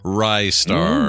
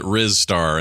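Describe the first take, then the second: First: The first syllable sounds like 'rye'. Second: The first syllable sounds like 'riz'. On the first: The speaker calls it right. "today we're talking about Rystar" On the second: The speaker calls it wrong. "I called it Rizstar in the day because I was an idiot"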